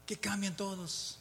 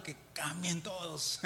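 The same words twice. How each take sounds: First: Said in the usual way. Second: Slow words breaking into a laugh. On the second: Real, not acted. Preacher laughing at his wish that everyone changes. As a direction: chuckle through it, slowly.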